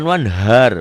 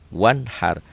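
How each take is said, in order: First: The h is a plain, light breathy sound. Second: The h is a tense, throaty pharyngeal sound. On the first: The speaker calls it wrong. "Bukan wanhar" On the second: The speaker calls it right. "Di situ dengan ha kecil"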